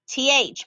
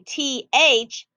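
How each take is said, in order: First: The two letter names are said quickly, together. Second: The two letter names are said slowly, apart. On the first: The speaker calls it right. "I say those two letters quickly together" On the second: The speaker calls it wrong. "I don't say T H thumb"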